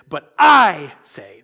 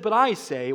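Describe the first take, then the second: First: The word I is stressed. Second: The word I is not stressed.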